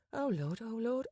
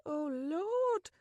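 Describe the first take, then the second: First: Higher, breathless oh Lord; flustered gasp. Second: Much higher, rising into a squeal; flustered cry. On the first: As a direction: fluster as she starts to panic. Penny's flustered inner panic. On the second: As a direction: panic peaking on Lord. Panic peaks. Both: Acted.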